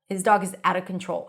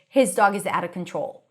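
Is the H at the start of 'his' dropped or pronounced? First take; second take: dropped; pronounced. First: The H at the start of 'his' is dropped. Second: The H at the start of 'his' is pronounced. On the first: "you will still drop the H" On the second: "pronouncing the full H"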